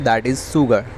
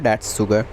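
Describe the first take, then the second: First: 'That is' is said as two full words. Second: 'That is' is shortened to one syllable.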